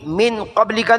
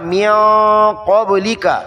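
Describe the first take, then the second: First: The n is pronounced fully and clearly. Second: The n is hidden into a nasal sound. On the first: The speaker calls it wrong. "नहीं पढ़ा मिन" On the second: The speaker calls it right. "बल्कि पढ़ा"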